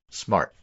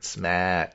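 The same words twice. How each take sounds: First: It is said in a plain, general accent. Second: It is said in a Boston accent.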